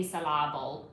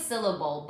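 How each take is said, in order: First: "syllable" said as sil-LAB-ul, stress on the middle; silly misplaced stress. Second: Said in the usual way. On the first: Shown as a demonstration. Speaker being silly, "syllable" stressed as sil-LAB-ul. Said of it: "sounds better when you say". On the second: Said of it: "I know it's syllable".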